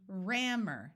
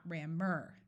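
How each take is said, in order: First: RAMMER stressed on RAM; first-syllable stress. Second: RAMMER with weight on final MER; wrong-syllable stress. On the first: Teacher modelling accented first syllable, stress on RAM in rammer. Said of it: "first syllable that is accented". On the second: Teacher showing what to avoid, second syllable of rammer stressed. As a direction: say "rammer" slowly as ram-MER. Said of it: "not rammer". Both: Shown as a demonstration.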